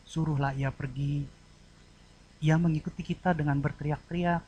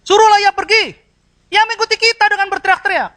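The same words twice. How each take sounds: First: Pleading request. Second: Loud, high-pitched angry shout; driving someone away. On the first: Disciples begging Jesus to act for the woman, soft plea. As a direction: ask gently and humbly, keeping it quiet. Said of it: "Kalimat yang satu memohon". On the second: Disciples chasing the woman away, angry shouting. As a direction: shout it as an order to get rid of her. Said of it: "Kalimat yang satu mengusir". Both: Shown as a demonstration.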